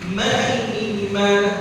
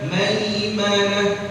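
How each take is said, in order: First: The 'ai' sound is drawn out melodically. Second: The 'ai' sound is short and direct. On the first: The speaker calls it wrong. "salah udah" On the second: The speaker calls it right. "Mestinya bacanya"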